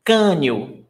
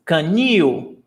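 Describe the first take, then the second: First: Canil with the weight on CA; stress on first syllable. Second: Canil with the weight on NIL; stress on last syllable. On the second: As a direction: lean into the second syllable of Canil, ca-NIIL. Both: Shown as a demonstration. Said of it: "Can you see the difference?".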